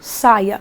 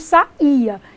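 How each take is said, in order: First: The a and i glide together in one syllable. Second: The a and i fall in separate syllables. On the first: It is a command or the noun for skirt. "neste caso, teria um ditongo" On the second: It is a past-tense verb form. "Esse I não seria mais de um hiato"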